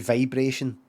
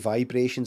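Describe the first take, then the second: First: The first vowel is not a plain 'eye' sound. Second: The first vowel is a plain 'eye' sound. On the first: The speaker calls it wrong. "I don't say vibration" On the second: The speaker calls it right. "I say vibration"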